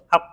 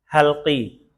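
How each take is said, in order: First: The word ends on a bare consonant. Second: The word ends with a short i vowel. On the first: The speaker calls it wrong. "jangan disukun" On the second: The speaker calls it right. "diharokatin kas kasroh"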